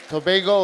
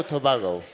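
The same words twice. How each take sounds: First: "Tobago" with the stressed vowel as in "bay"; Tobago, alternative vowel. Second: "Tobago" with the stressed vowel as in "father"; Tobago, questioned vowel. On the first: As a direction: say "Tobago" with an AY in the middle, toh-BAY-go. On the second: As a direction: say "Tobago" with an AH in the middle, toh-BAH-go. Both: Shown as a demonstration. Unsure of pronunciation, offers two versions.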